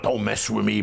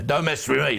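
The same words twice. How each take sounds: First: It is said in an American accent. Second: It is said in a British accent.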